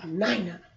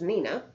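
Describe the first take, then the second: First: The 'i' sound is given unusual emphasis. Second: The 'i' sound is said the usual way. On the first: This is how the person actually says the name. "Weird emphasis on the I there" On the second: This is how the spelling would normally be read. "which is Nina"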